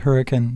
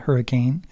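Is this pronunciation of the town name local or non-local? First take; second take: local; non-local. First: The name is said the way locals say it. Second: The name is said the way outsiders say it. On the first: The speaker calls it right. "That's how you say it, by the way, when you're local" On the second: The speaker calls it wrong. "not hurricane"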